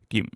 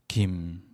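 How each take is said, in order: First: The pitch is cut short abruptly. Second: The pitch goes down. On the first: "콕 짚어주는 성조" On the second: "내려가는 성조"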